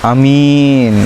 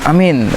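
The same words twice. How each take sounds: First: The first vowel is short. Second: The first vowel is long. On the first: A trustworthy person. "orang yang amanah. Alifnya dibaca pendek" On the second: Please answer the prayer. "nah amin fi'il amar tuh"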